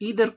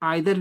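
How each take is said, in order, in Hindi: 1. पहला स्वर 'ee' की तरह बोला जाता है। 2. पहला स्वर 'eye' की तरह बोला जाता है। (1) "खासकर अमेरिकन आइदर को ईदर की तरह प्रोनाउंस करते हैं" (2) "ईदर को आइदर भी प्रयोग उच्चारण कर सकते हैं"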